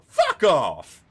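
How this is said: It imitates old mate from the Celtic Tiger.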